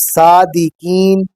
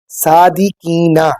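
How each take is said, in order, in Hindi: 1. शब्द का अंत व्यंजन ध्वनि से होता है। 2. शब्द का अंत स्वर ध्वनि से होता है। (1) "थोड़ा सा ठहराव जो है, वक्फ जो है वो कायम करके" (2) "ना जब आ गया तो इसका मतलब है फिर कि हम रुके बगैर ही अगली आयत को आगे शुरू कर रहे होंगे"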